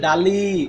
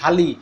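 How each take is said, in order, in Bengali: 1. প্রথম ব্যঞ্জনটি সাধারণ, অর্থাৎ অল্পপ্রাণ। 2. প্রথম ব্যঞ্জনটি শ্বাসযুক্ত ও মহাপ্রাণ। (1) "কিন্তু ঢালিটাকে কিভাবে উচ্চারণ করব? মগে তেল ডালি" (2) "মগে তেল ঢালি"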